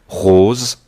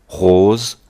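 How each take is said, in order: Both takes have the same delivery.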